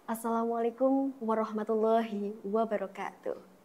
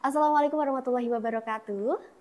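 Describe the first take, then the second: First: It is said slowly and solemnly with weight. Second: It is said smoothly in one connected run. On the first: This is a sacred wedding ceremony. "Jadi lebih hikmat, lebih ngena" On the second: This is a formal but relaxed event. "Jadi langsung der, langsung nyambung gitu"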